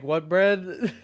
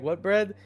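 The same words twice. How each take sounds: First: Puzzled clerk asking back, pitch up; mock confused clerk. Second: Same puzzled clerk question, a bit higher; the baffled worker asks again; mock confused clerk. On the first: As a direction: play the baffled sandwich worker. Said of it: "And they're like". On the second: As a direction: clerk asking what bread again. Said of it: "They're like".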